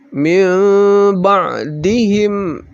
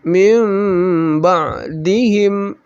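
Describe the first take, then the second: Both takes have the same delivery.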